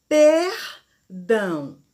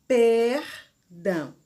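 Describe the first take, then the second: Both takes have the same delivery.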